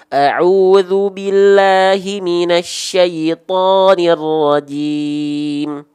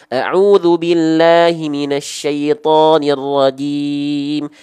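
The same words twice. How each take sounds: First: It is recited at a slower, measured tempo. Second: It is recited at a quick tempo.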